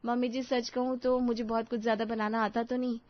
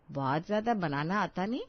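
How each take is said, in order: First: Said in the usual way. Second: Sarcastic repeat with a rise on ज्यादा; mocking echo. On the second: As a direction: throw the bride's words back at her in disbelief. Mother-in-law frowns, echoes bride.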